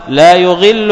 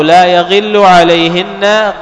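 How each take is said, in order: First: لا يغل as "la yughillu", u on the ya; first reading of يغل, starting "yu"; damma reading. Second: لا يغل as "la yaghillu", a on the ya; fatha reading. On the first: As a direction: say يغل as "yu-ghillu". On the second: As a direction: alternative reading of يغل, starting "ya". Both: Shown as a demonstration. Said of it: "يحتمل المعنيين".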